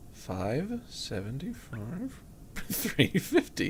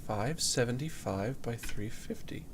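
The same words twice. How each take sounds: First: Soft, drawn-out words with swooping rises; slow, doubtful repeat. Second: Said in the usual way. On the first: Real, not acted. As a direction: stretch each number out questioningly.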